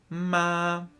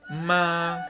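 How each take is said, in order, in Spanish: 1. El tono se mantiene plano y estable todo el tiempo. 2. El tono se mantiene plano y estable todo el tiempo.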